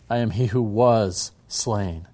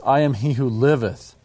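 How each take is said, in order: First: Slow, with "was" stressed as past tense. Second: "liveth" stressed as present tense, "am" lifted. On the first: Teacher quoting Jehovah to show the verb tenses, slow stress on "was". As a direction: draw out "was" before "slain". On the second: Teacher quoting Jehovah to show the verb tenses, stress on "liveth". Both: Shown as a demonstration. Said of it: "have to emphasize the verb tenses".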